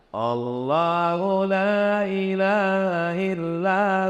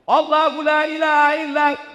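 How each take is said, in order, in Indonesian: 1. Dibaca dengan pelan dan lembut. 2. Dibaca dengan keras dan tegas.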